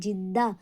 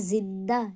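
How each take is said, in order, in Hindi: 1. शब्द 'j' की आवाज़ से शुरू होता है। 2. शब्द 'z' की आवाज़ से शुरू होता है। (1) "कोई कोई जा का इस्तेमाल करते हैं यानी जिंदा, तो ये सरासर गलत है" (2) "हमने इसे बोलना है जिंदा"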